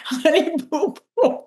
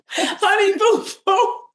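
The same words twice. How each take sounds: First: Squeaky, much higher mock-childish voice; silly high voice. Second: Very high, slow, crying-sounding mock wail; silly wailing voice. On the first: Co-host riffing on the name, goofy high squeak. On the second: Repeating the name for laughs, high slow mock wail. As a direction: stretch the name into a high, whiny, fake sob. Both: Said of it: "Now we're just getting overly silly".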